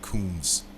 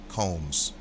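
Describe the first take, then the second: First: The vowel sounds like the one in 'room'. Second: The vowel sounds like the one in 'home'. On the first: The speaker calls it wrong. "Not Combs" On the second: The speaker calls it right. "I'm just pronouncing it correctly"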